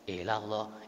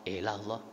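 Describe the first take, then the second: The two takes are said the same way.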